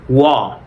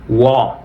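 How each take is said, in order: The two takes are said the same way.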